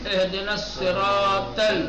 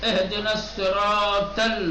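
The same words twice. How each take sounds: No difference in how they are said.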